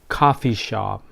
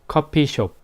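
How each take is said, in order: First: It is said with English-style pronunciation. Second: It is said with Korean-style pronunciation. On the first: The speaker calls it wrong. "pronunciation is not coffee shop" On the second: The speaker calls it right. "We call that coffee shop"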